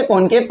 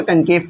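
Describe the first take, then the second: First: "कॉनकेव" opening on a rounded o, as kon-kev; alternative pronunciation. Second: "कनकेव" opening on an unrounded short a, as kun-kev; teacher's usual pronunciation. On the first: Teacher showing students how some people read it, "कॉनकेव" pronounced kon-kev. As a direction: say "कॉनकेव" with an open "kon" first syllable. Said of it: "कुछ लोग इसे कॉनकेव पढ़ते हैं". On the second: Teacher giving students the usual reading, "कनकेव" pronounced kun-kev. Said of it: "मैं इसे अक्सर कनकेव पढ़ रहा होता हूँ". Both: Shown as a demonstration.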